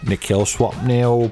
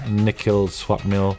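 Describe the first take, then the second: First: It is said in a put-on British voice. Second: It is said in his normal voice.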